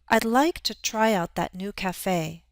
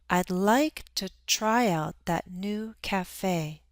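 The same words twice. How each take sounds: First: The sentence is spoken at a normal pace. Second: The sentence is spoken at a slower pace.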